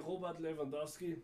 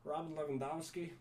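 First: "Robert Lewandowski" with a German uvular r; "Lewandowski" said "Levandovski" with a V. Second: "Robert" with an American r, "Lewandowski" said "Levandovski". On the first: German speaker showing his own pronunciation, German-style. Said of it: "we in Germany, we say". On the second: Mimicking how Americans say the name, American-accented. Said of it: "Americans tend to say". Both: Shown as a demonstration.

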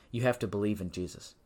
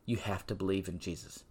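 First: "have" leaned on, the rest plain; firm stress on "have" in "You have to". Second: "you" stressed, whole line much softer; quiet, personal "you" at the front. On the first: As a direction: push the word "have". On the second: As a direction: drop the voice and point at "you". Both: Shown as a demonstration. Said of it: "Bible makes that very clear".

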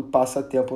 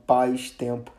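First: Said in the usual way. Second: "paz-tempo" run together without passatempo's middle "a"; wrong contracted pronunciation. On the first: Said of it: "eu continuo falando passatempo". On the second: Shown as a demonstration. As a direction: say "paz-tempo", first part like "pais". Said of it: "eu não falo paz-tempo". ("paz-tempo" com pronúncia errada, engolindo o "a" do meio)

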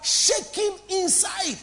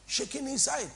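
First: SHAKING INSIDE stretched out slow and high; emphatic. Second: Said in the usual way. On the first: Real, not acted. Preacher answering their own question to the congregation, emphatic "Shaking inside".

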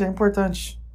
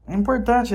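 First: Said in the usual way. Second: Importante said high and loud, hammered home; emphatic importante. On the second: Real, not acted. Stressing to the listener how much it matters, high and loud. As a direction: really hammer the word importante.

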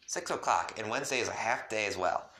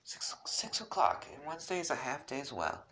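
First: Said in the usual way. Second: Whispered, higher and soft. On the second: Acted. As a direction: whisper it shyly as Rose. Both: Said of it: "Rose informed me".

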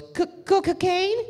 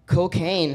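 First: High imitated stutter, rising into a question; stuttering mama-san. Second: Higher, falling echo of the word; surprised echo. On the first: Mama-san stuttering out her offer, high questioning voice. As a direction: stammer the first syllable in a high put-on voice. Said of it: "she stutters". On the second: Retold or imitated. Customer echoing the mama-san's offer, mildly startled and higher. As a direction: repeat it back, taken aback. Teller acts his startled reply.

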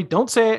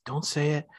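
First: Higher, louder urgent warning; rising warning. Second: Hushed warning. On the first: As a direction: push the warning up sharply. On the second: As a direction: keep it under your breath. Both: Retold or imitated. Sean warning Corey.

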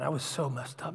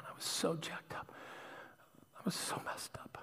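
First: Said in the usual way. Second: Near-whispered, much softer; barely voiced, under the breath; hushed confession. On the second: Real, not acted. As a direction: drop to a whisper as you admit it. Confessing, repeats it in a hush.

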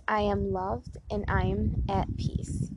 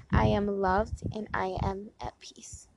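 First: Said in the usual way. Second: Whispered affirmation. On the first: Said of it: "Next one is". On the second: Shown as a demonstration. Whispering an affirmation to her viewers on the porch. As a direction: breathe the words out, no voice, slowly. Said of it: "I'm sorry, one more time".

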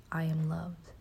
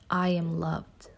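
First: Soft echo. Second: Slow affirmation. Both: Shown as a demonstration. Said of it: "Say it with me".

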